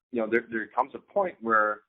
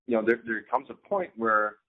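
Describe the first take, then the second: No difference in how they are said.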